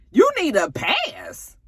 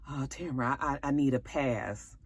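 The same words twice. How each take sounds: First: Very high, slow disbelief; mock incredulous wife. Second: Much softer, stammering plea; mock sheepish husband; meek plea. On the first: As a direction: drag it out high, not believing it. Tamara repeating his words in disbelief. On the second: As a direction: mumble it meekly, stammering. Nate meekly begging off.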